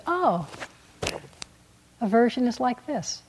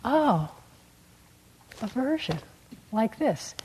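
First: Plain. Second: Gentle noting, softer. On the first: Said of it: "Wise attitude is". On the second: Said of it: "All you have to do is notice". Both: Shown as a demonstration.

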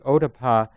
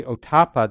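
First: "ottappa" with a light middle syllable, OH-tuh-pah; alternative pronunciation. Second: "ottappa" stressed on the middle syllable, oh-TAH-puh; alternative pronunciation. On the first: Teacher repeating the term the other way, "ottappa" as OH-tuh-pah. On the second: Teacher returning to the second term, "ottappa" as oh-TAH-puh. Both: Shown as a demonstration. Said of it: "depending on how people pronounce it".

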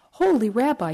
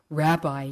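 First: A touch of a wail, high and louder; lightly wailed plea. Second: Said in the usual way. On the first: A narrator's reading. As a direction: cry out to the rabbi in mild despair. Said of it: "he wailed". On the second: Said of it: "he cried".

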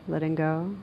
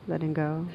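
Both takes have the same delivery.

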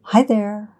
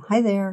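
First: Put-on light, gleeful baby greeting pitched higher and louder; baby squealing with glee. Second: Put-on gleeful baby greeting pitched higher, falling at the end; baby squealing with glee. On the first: Narrator voicing baby Eric greeting the stranger with glee. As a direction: squeal it out like a delighted toddler. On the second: Narrator voicing baby Eric greeting the stranger again, gleefully. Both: A narrator's reading. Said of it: "she hears Eric squealing with glee".

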